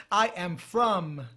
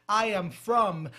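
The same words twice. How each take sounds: The two takes are said the same way.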